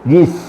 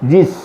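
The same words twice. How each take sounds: First: The two sounds are joined into one syllable. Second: The same.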